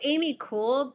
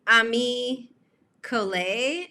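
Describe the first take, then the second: First: The last word is said as one syllable. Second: The last word is said as two syllables. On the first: The speaker calls it wrong. "I said Amy Cole" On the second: The speaker calls it right. "Vicky J kind of said Ami Collet"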